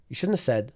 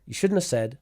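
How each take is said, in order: No difference in how they are said.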